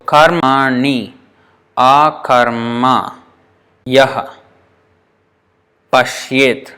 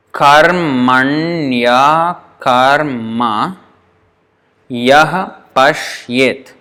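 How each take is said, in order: First: "karmani akarma yah pashyet" slow, with pauses between words; counted out slowly. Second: "karmanya karma yah pashyet" drawn out syllable by syllable; slow, joined form. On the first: Teacher counting nine syllables, slow and separated. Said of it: "becomes nine". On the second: Teacher counting eight syllables, slow with joined ya. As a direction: stretch "karmanya" with i and a merged into ya. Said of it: "if we treat it as one word". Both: Shown as a demonstration.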